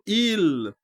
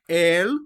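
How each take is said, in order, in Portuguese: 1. A palavra é dita com a vogal 'i'. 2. A palavra é dita com a vogal 'e'. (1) "cá para o norte, se não me falha a memória, já era pronunciado Il" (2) "El, cá embaixo"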